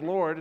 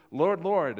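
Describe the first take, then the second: First: Said in the usual way. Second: Lord, Lord slowed and pressed hard; like an exclamation point on Lord, Lord; both words of Lord, Lord stressed and drawn out; emphatic Lord, Lord. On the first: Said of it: "it's not just Lord". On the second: Shown as a demonstration. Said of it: "which is emphatic".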